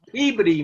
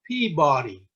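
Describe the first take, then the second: First: It is pronounced the way locals say it. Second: It is pronounced the way it is spelled. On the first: The speaker is from the area. The speaker calls it right. "It's Peabody" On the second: The speaker is not from the area. The speaker calls it wrong. "No one from Massachusetts would ever pronounce that Peabody"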